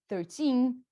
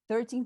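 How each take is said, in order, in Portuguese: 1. A tônica cai forte na última sílaba. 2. As duas sílabas têm a mesma tônica. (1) "Lembra que o teen é o cara forte" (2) "se eu não colocar essa sílaba tônica"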